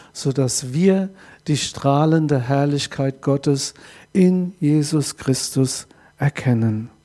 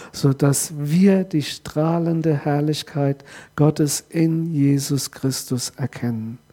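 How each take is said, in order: Both takes have the same delivery.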